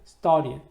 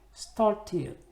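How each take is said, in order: First: The t sound is hidden, American-style. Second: The vowel is soft and long, British-style. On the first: "이 t 발음을 숨기는 경우도 있습니다" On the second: "모음을 좀 부드럽고 길게 읽어주면은 영국식이 되더라고요"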